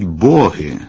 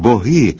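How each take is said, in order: First: The stress falls on the first syllable. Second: The stress falls on the second syllable. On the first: The speaker calls it wrong. "обов'язково наголосять «боги»" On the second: The speaker calls it right. "Піднесений вислів із іменником «боги»"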